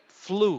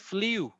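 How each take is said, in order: First: The vowel is a plain 'oo' without a glide. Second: The vowel has a 'y' glide, like 'yoo'. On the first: The speaker calls it right. "But the pronunciation is like U" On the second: The speaker calls it wrong. "if you say you, that will be like flew"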